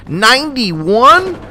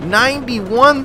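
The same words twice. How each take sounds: First: High, slow, loud, drawn-out ninety-one; long stunned ninety-one; incredulous. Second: High, quicker repeat of ninety-one; incredulous. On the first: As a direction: stretch it out in sheer disbelief. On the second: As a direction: echo it again, still stunned. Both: Real, not acted. Shocked at score.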